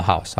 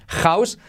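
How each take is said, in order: First: House said low with a soft breathy h; soft h in house, dropped low; the corrected house; right house. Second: House with a hard Spanish j; the mistake; wrong house. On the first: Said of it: "sino house". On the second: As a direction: house said as written. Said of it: "no digas house". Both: Shown as a demonstration.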